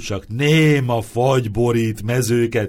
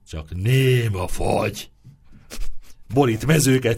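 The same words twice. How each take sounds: First: It runs on without a pause after 'fagy'. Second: There is a sentence-final pause after 'fagy'.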